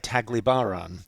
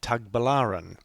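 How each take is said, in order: First: The L sound comes before the B sound. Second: The B sound comes before the L sound. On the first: The speaker calls it wrong. "I say Taglibaran right through this video" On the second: The speaker calls it right. "It's actually Tagbilaran"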